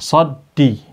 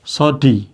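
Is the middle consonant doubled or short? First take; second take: doubled; short. First: The d sound is held long and doubled. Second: The d sound is short and single. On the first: "double D" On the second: "Kalau nggak ada tasdidnya gimana?"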